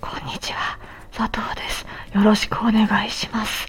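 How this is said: The voice is weak, breathy and hoarse.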